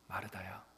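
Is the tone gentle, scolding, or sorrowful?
gentle. The name is said quietly and softly. The caller is lovingly comforting her. The speaker calls it right. "조용히 그리고 잔잔히 그 이름을 불러주시는"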